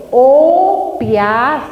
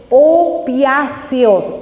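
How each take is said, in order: First: Opiáceos drawn out very slowly with a rising tune; slow emphasis, rising. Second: Opiáceos drawn out very slowly, falling at the end; slow emphasis. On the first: Speaker repeating the word for listeners, slow and rising. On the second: Speaker teaching the congregation the word, slowly falling. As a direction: spell out opiáceos syllable by syllable, tune dropping. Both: Shown as a demonstration. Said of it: "se llaman receptores".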